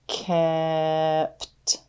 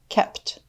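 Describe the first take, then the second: First: The word is stretched out slowly, sound by sound. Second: The word is said quickly as one unit. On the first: "Let's tap and stretch" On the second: "Say it fast"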